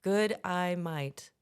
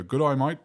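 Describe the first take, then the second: First: "Good eye, mate" in careful separate American words; tentative "Good eye, mate", softer on "mate"; own-accent attempt. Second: "Good eye, mate" with day said as "eye"; Australian "g'day mate" built from "Good eye, mate"; good-eye-mate trick. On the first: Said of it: "In your accent". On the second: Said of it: "put all those together". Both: Shown as a demonstration.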